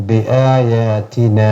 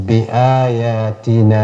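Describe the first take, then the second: The two takes are said the same way.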